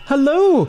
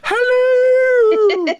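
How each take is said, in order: First: It is said in his normal voice. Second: It is said in a Mrs. Doubtfire-like voice.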